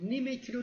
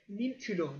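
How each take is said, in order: First: An added e sound links the two words. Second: No vowel links the two words. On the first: The speaker calls it wrong. "Nime kilo değil" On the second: The speaker calls it right. "e sesi vermeden okunuyor"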